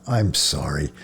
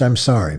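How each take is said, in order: First: Soft, lower, sincere I'm sorry; gentle apology. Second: Curt, impatient I'm sorry; harsh apology. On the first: Ashamed priest apologizing to the frightened boy, soft. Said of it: "Mahler shook his head at himself and smiled". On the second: Priest brushing off a lost child, harsh. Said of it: "Mahler spoke harshly". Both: A narrator's reading.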